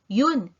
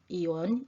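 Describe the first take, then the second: First: The word is said in a shortened form. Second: The word is said in its full form. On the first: This is the casual everyday way to say it. "Yun is a shortcut" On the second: This is the formal way to say it. "Iyon is the formal and correct way"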